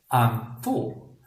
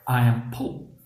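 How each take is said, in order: First: The last word starts with an F sound. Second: The last word starts with a P sound.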